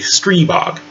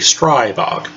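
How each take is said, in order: First: The vowel after 'Str' sounds like 'ee'. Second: The vowel after 'Str' sounds like 'eye'. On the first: This is how Slovakians say the name. "it comes out as an E sound" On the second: This is how Americans say the name. "when we give the letter I its full voice, it comes out as I"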